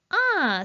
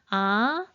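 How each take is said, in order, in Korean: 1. 음이 높은 데서 낮은 데로 급하게 떨어집니다. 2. 음이 중간에서 높게 올라갑니다. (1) "마지막 아, 아, 사성" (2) "이성은 어떻게 발음해요?"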